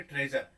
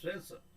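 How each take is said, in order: First: ट्रेजर in an Indian accent, hard j and rolled r; Indian-accented ट्रेजर, j and r sounded. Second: ट्रेजर with a soft zh sound and no final r; ट्रेजर said the British way, treh-zhuh; phonetic pronunciation. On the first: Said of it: "ऐसे हम Indian accent में क्या बोलेंगे". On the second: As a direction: say ट्रेजर as tre-zhuh, zh in the middle, r dropped. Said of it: "कैसे बोलेंगे". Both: Shown as a demonstration.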